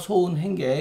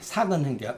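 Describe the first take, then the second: First: The first syllable is pronounced so. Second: The first syllable is pronounced sak. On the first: This reading follows a different interpretation with another meaning. "이건 그렇지 않다" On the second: This is an older traditional reading. "색자로 안 읽고 또 삭자로 읽었어요"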